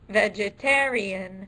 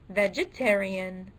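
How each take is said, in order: First: The stress is on the third syllable. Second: The stress is on the second syllable. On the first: The speaker calls it right. "obviously the third syllable is stressed" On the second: The speaker calls it wrong. "the second syllable"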